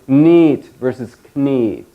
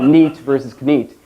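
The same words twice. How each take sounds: First: The vowels are said long. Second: The vowels are said short. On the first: "We pronounced it long like that" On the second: "it wasn't just"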